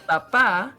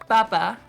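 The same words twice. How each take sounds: First: The stress is on the second syllable. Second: The stress is on the first syllable. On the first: It means dad. "it's on the second" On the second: It means potato. "the accent is on the first syllable"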